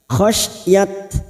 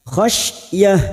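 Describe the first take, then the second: First: The word ends with a t sound. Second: The word ends with a soft h sound. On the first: The speaker calls it wrong. "bukan khasyat" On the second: The speaker calls it right. "kita baca khasyah"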